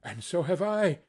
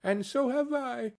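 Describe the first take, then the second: First: Put-on mildly raised, eager boy's cry. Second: Put-on much higher little child's voice; another child chiming in. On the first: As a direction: chime in as Peter, lightly acted. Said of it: "cried Peter". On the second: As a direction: pipe up high as another child. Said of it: "explained another". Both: A narrator's reading.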